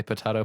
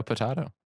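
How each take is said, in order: First: Potato said as po-TAY-to; potato with long a. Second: Potato said as po-TAH-to. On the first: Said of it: "I say potato". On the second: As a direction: say potato with an open ah. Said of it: "I say potato, potato". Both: Shown as a demonstration.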